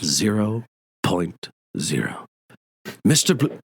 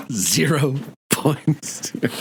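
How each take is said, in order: First: A hint of a stern college dean; Dean Wormer quote. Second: Very slow, drawn-out stern dean; hammed-up stern dean, savoring each word; Dean Wormer quote. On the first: Quoting Dean Wormer from Animal House. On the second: Repeats the Animal House quote.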